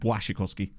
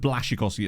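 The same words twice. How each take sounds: First: The letter after B sounds like a W. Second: The letter after B sounds like an L. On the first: The speaker calls it right. "it's like" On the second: The speaker calls it wrong. "instead of"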